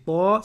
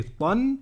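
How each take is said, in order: First: TA with an open held a, no n; long vowel. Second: TAN short, closed on a sounded n; final n. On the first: Teacher contrasting it with tan, long open vowel. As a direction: draw out "ta" without closing on n. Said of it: "c'est pas comme tan". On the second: Teacher recalling the earlier syllable, final n sounded. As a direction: say "tan" ending firmly on the n. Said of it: "Là c'était tan". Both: Shown as a demonstration.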